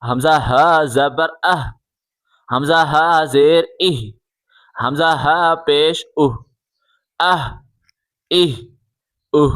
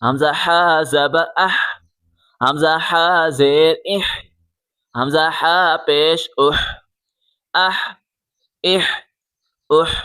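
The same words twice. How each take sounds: First: "اہ" ends in a light, open h; h from the mouth. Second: "اح" ends in a throaty, rasped h; strong pharyngeal h closing each "اح"; h from the throat. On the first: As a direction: let the h of "ہا" and "اہ" out through the mouth. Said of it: "منہ سے آواز نکال کے پڑھیں". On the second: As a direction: push the h of "حا" and "اح" from the throat. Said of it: "حلق سے آواز نکالیں". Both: Shown as a demonstration.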